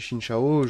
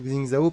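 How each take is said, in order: First: The name begins with a 'sh' sound. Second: The name begins with a 'ks' sound. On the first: This is how it is pronounced in China. "ça doit se prononcer Shin Shao" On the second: This is the speaker's habitual pronunciation. "je continue de dire Xing Zhao parce que ça a toujours été une habitude chez moi"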